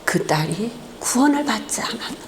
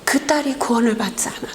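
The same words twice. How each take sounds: First: A grave, quiet, distant voice from above; voice of God. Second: The same words in a fast whisper; whispered echo. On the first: Pastor voicing God answering him at the funeral, softly and solemnly. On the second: God's question echoing in the pastor's ears, whispered. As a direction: let the divine question echo back as a rushed whisper. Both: Retold or imitated. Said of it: "주의 음성이 들려오는 거예요".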